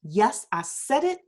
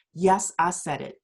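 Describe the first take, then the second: First: Said in the usual way. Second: Lightly put-on radio host voice, pitched lower; a hint of a deep host impression; Michael Baisden voice. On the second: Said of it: "in my Michael Baisden voice".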